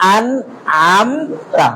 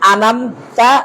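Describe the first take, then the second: First: Each letter is separated and clearly articulated. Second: The sounds are run together without separation. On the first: The speaker calls it right. "শুদ্ধটা বলবেন... প্রত্যেকটি বর্ণ... খুলে দেখাবেন" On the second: The speaker calls it wrong. "প্রথম ভুল বলবেন"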